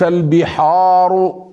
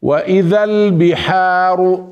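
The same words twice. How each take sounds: First: البحار with a dark, backed long a; wrong heavy vowel. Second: البحار with a light, open long a; correct light vowel. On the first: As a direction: thicken the aa in البحار. (البحار بتفخيم الحاء خطأ) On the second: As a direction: chant البحار with a thin aa. (البحار بترقيق الحاء) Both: Shown as a demonstration. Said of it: "وليس البحار".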